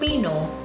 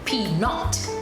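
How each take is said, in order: First: The final T is silent. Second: The final T is pronounced. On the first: "we take the T away" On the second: "in English, if we are pronouncing that word, it would be peanut"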